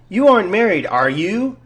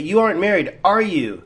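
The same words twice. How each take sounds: First: The voice rises at the end. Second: The voice falls at the end. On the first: The speaker is unsure and asks for information. "because you rose it" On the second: The speaker believes it and only seeks confirmation. "when you have a falling"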